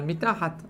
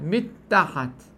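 First: The middle t sound is short, not doubled. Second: The middle t sound is lengthened, doubled. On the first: "אמרתי את התו והמשכתי הלאה" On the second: "הוא שומע כאילו אני מעריך בקריאה של האות"

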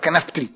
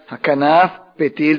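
First: One P sound is swallowed between the words. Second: Both P sounds are pronounced separately. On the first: The speaker calls it wrong. "אתה יכול לבלוע פה אחד" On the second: The speaker calls it right. "מסתיים בפה, מתחיל בפה"

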